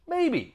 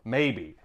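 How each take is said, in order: First: Coy maybe. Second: A deep sly admission; Maybe, low and conspiratorial; low knowing maybe. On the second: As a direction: drop the pitch low on Maybe. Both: Pretend. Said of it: "Did I grow my mustache".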